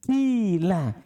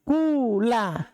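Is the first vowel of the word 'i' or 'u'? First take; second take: i; u. First: The first vowel is a pure 'i' sound. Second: The first vowel is a pure 'u' sound. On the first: "ikhlas kasro" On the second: "Murnikan dhamma"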